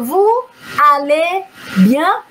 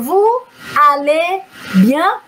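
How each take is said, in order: First: There is a pause between the words. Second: There is a pause between the words.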